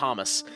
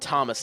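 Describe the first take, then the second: First: The name ends with a clear S sound. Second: The name ends without an S sound. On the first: It is the usual English pronunciation. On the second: It imitates the French pronunciation.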